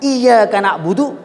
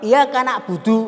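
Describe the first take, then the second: First: The y sound is doubled and stressed. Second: The y sound is single and unstressed. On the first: It addresses God as the one worshipped. The speaker calls it right. "ada tekanan" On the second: It means the sun is worshipped. The speaker calls it wrong. "nggak ada tekanan"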